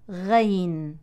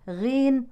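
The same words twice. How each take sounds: First: It starts light and thin with 'a'. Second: It starts with an 'i' vowel. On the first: "ولا بالترقيق" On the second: "لا بالكسر"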